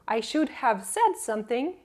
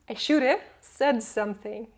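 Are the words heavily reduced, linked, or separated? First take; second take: separated; heavily reduced. First: Each word is said separately and in full. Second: The words blend together with heavy reduction.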